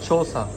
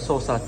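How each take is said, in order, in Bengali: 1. এই অংশটি ch ধ্বনি দিয়ে শুরু। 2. এই অংশটি s ধ্বনি দিয়ে শুরু।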